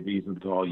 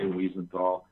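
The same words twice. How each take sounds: First: The name is said with Austrian German sounds. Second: The name is said with plain English sounds. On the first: It follows how the man himself said his name. "chosen to pronounce it Simon Wiesenthal because he has uh, an Austria an Austrian accent" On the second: It is the listener's own way of saying it. "you can say Wiesenthal"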